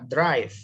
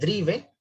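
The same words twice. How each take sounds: First: It is said with English sounds, like 'draiv'. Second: It is read with Spanish sounds, as spelled.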